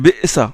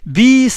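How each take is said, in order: First: The glottal stop is pronounced fully in the word. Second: The glottal stop is dropped and the vowel lengthened. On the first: "il ne dit pas ... بئس puisqu'il est lourd" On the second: "Il dit بئس المصير. Il la prononce comme ça"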